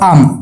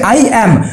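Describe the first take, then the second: First: It is said as one short contracted syllable. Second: Both words are said fully and separately. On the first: The speaker calls it right. "সবসময় এটাকে উচ্চারণ করবা কি বলতো, আম" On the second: The speaker calls it wrong. "তখন তুমি এরকম কখনো বলবে না"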